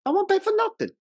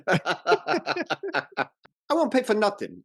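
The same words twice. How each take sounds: First: Very high, pinched stubborn father; imitating the father's intonation. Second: Put-on high, indignant old father; imitating the father. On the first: Quoting the father's final line from the stairs, high mock indignant. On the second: Father refusing to pay for the wedding, high and stubborn. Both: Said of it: "I love the intonation on his final line".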